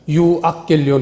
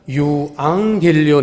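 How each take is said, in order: First: A k-like sound comes before the g. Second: An ng sound comes before the g. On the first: The speaker calls it wrong. "유악겔리온이 아니라" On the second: The speaker calls it right. "이응 발음으로"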